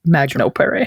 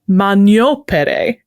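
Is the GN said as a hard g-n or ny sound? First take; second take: hard g-n; ny sound. First: The GN is said as hard g-n. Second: The GN is said as a ny sound. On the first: This is the classical Latin pronunciation. "they would pronounce that G N the way we would" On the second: This is the church Latin pronunciation. "the G N there makes a ñ sound"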